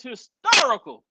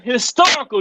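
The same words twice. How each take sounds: First: Hysterical said as his-TER-ical; said right. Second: Historical said as his-TOR-ical in place of hysterical; misused word. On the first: Host reads the word hysterical correctly. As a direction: say hysterical correctly, not historical. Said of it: "The word historical, do you mean historical too?". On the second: Host repeats the guest's mix-up historical. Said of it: "do you mean historical too?". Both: Shown as a demonstration.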